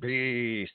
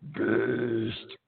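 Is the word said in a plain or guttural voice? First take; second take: plain; guttural. First: It is said in a plain, ordinary voice. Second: It is said deep and guttural, from the throat.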